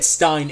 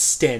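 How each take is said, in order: First: The vowel sounds like 'eye', as in 'wine'. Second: The vowel sounds like 'eh', as in 'ten'. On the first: The speaker calls it wrong. "I keep saying her name wrong. I said Stein" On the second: The speaker calls it right. "it's Sten"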